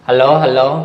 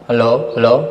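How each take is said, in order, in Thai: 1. เสียงเป็นธรรมชาติ ไม่ได้ปรับ 2. เสียงถูกปรับให้เหมือนคนแก่ (1) "เสียงไมค์มันก็มาแล้วนะทุกคน" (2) "แล้วก็เป็นเสียงคนแก่"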